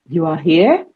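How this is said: It is said with the pitch of a question. It asks whether the listener is there. "By altering the pitch, I have created a question"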